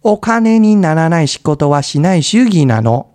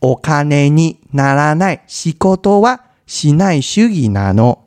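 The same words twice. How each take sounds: First: It is said at a faster speed. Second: It is said at a normal, slower speed.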